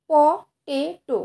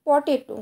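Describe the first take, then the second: First: potato very slowly as প, টে, টো; potato broken up with a pause after each syllable; split into three syllables. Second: Said in the usual way. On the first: Shown as a demonstration. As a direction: give potato three separate beats. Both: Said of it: "এখানেও তিনবার ঝোঁক নিতে হচ্ছে".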